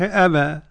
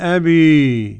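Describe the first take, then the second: First: The final vowel is a fully open a. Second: The final vowel is strongly tilted toward i. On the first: "والفتح" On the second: "الإمالة"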